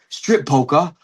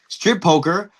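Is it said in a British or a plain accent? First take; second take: British; plain. First: It is said in a put-on British accent. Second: It is said in the speaker's own accent.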